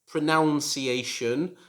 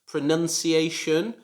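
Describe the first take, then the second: First: The second syllable sounds like 'noun'. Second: The second syllable sounds like 'nun'. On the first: The speaker calls it wrong. "because the verb is pronounce" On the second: The speaker calls it right. "it should be pronounced pronunciation"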